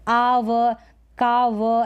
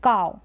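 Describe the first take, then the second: First: आव, काव as "aa-vuh, kaa-vuh"; आव, काव broken into two syllables; wrong split reading. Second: काव as one-syllable "cow"; काव with no separate v sound; ow diphthong. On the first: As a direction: give आव and काव a separate final "vuh". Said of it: "ऐसे पढ़ते तो गलत". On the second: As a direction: glide काव into a single "ow". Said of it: "इसका उच्चारण ये होगा". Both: Shown as a demonstration.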